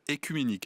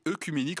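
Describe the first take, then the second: First: The first vowel is an 'ay' sound. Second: The first vowel is a rounded 'eu' sound. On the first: The speaker calls it right. "on devrait dire" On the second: The speaker calls it wrong.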